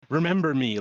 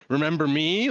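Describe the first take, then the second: First: It is said as a statement, falling. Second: It is said as a question, rising.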